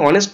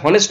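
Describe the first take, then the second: First: The word begins with a vowel sound. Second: The word begins with an h sound. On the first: The speaker calls it right. "অনেস্ট, তাই বসলো an" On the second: The speaker calls it wrong. "উচ্চারণটা হনেস্ট নয়"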